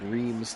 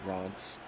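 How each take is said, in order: First: It is read out the English way, from spelling. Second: It is said the French way, as locals do. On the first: This is how it looks to English speakers. "what we would it would look like Reims to us" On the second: This is how the locals say it. "they pronounce it Reims"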